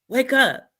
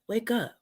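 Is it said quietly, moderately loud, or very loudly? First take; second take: moderately loud; quietly. First: It is said louder than before. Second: It is said quietly and subtly.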